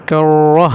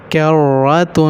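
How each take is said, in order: First: کرة slowly stopped on a final h; pausal ending. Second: کرة with final "-tun" sounded; full ending. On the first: Teacher showing the stop, کرة ending in h. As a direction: end کرة in "-ah", dropping the ending. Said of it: "وقف". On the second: Teacher drilling the unstopped word, کرة ending "-tun". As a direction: hold the rolled r, finish کرة on "-tun". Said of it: "وقف کرة". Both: Shown as a demonstration.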